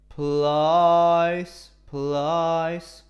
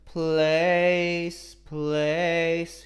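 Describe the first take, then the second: First: The vowel is an 'ah' sound. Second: The vowel is an 'ay' sound. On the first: "He went plies plies" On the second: "a a a like place place"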